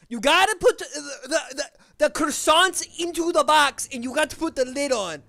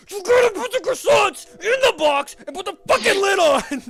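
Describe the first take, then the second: First: Higher, louder put-on instruction voice; polite version. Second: Much higher, louder frustrated yell; fed-up shout. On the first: To a coworker about boxing croissants, higher mock-polite instruction. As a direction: spell the task out brightly to a coworker. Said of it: "how I would say it to a person". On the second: Retold or imitated. To the new lady stacking croissants without lids, exasperated shout. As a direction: blow up at them over the lids. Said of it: "That's, like, what I wanna say".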